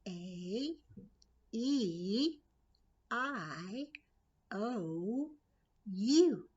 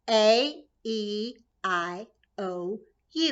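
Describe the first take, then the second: First: It is said at medium loudness. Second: It is said louder and faster.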